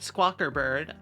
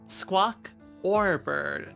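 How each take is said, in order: First: The middle syllable is a reduced 'er' sound. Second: The middle syllable is a full 'or' sound. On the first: The speaker calls it wrong. "not er" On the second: The speaker calls it right. "I said squawk or bird"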